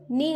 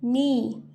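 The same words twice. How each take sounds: First: नी with the ee cut short; a brief, unheld नी; short vowel. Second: नी with a drawn-out ee; long vowel. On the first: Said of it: "इसको नी नहीं बोलेंगे". (नी, छोटी आवाज़ में) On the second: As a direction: hold the vowel in नी. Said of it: "हम इसे बोलेंगे". (नी को लंबा खींचकर) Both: Shown as a demonstration.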